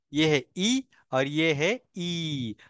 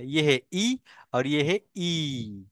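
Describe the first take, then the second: First: First ई quick, second ई held long, slowly spoken; short then long ee again. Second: First ई clipped short, second ई drawn out long, all slow. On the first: Teacher repeating short versus long ई so students hear it. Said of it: "short है, और इसका long है". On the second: Teacher contrasting short and long ई for students. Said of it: "pronunciation में क्या फर्क है". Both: Shown as a demonstration.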